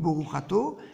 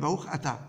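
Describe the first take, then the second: First: The second word ends with an 'o' vowel. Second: The second word ends with an 'a' vowel. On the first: "Ils prononcent plus Baruch Ato" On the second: "mais Baruch Ata"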